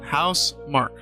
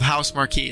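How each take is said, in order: First: The last part is one syllable, like mark. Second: The last part is two syllables, like marquee. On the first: "How to say it? House Mark. Probably" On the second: "so I'm going to go with House Marquee"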